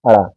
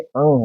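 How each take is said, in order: First: It is said with a flapped 'ra' sound. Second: It is said with a nasal 'ng' sound. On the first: The speaker calls it wrong. "ये अड़ा नहीं है" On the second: The speaker calls it right. "ये अंग है"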